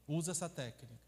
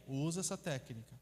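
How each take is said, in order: Both takes have the same delivery.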